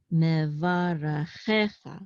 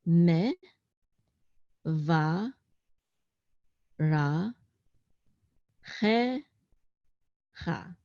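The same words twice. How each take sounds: First: "Me, va, ra, che, cha" blended into one word; syllables joined up. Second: "me, va, ra, che, cha" as lone syllables with long pauses. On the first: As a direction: run "Me, va, ra, che, cha" together without pauses. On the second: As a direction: sound out "me, va, ra, che, cha" one piece at a time. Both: Shown as a demonstration. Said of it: "I'm just gonna read it".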